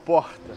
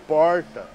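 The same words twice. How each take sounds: First: It is said in a different, non-interior accent. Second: It is said in an interior São Paulo accent. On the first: This is not how the speaker talks. "eu não falo porta" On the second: This is how the speaker really talks. "Eu falo porta"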